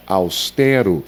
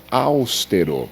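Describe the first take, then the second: First: Austero com a tônica no TE, e aberto; pronúncia correta. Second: Austero com a tônica errada no AUS; silabada. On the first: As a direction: diga austero acentuando "te": aus-TÉ-ro. (austero como paroxítona, TE forte) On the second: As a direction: diga austero acentuando a primeira sílaba: ÁUS-te-ro. (austero como proparoxítona, AUS forte) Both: Shown as a demonstration. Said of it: "e não austero".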